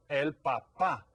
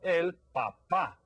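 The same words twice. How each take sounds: First: El papá, stress on pá; stress on the last syllable. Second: El papá slow, stress on the final pá; Spanish word. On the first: Teacher repeats the word so kids hear the stress. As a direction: repeat El papá, hitting the final pá. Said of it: "put the accent on this word". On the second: Teacher models a Spanish word for kids, slow careful pronunciation. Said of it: "Y en español es". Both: Shown as a demonstration.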